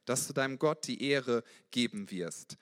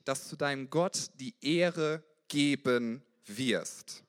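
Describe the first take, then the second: First: Said in the usual way. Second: Drawn out slowly, weight on Gott; slow emphatic. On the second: Shown as a demonstration. Preacher urging listeners to choose God, slow and emphatic. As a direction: lean on every word of "dass du deinem Gott die Ehre geben wirst". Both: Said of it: "Entscheide dich".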